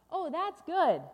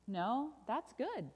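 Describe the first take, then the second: First: High, loud burst of delight; delighted refrain. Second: Slow, lilting contradiction; reassuring correction. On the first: Storyteller reacts to the balloon ride, loudly delighted. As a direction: cheer the good news. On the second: Storyteller overturns the bad news, slow and lilting. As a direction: draw it out to reveal good news. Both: Acted.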